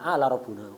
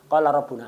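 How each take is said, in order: First: The first word starts with a glottal stop. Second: The first word starts with a q sound. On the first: "Itu orang Mesir gitu, kofnya ganti hamzah"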